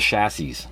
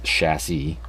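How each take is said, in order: First: The s sound is clearly pronounced. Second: The s sound is left silent. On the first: The speaker calls it wrong. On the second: The speaker calls it right.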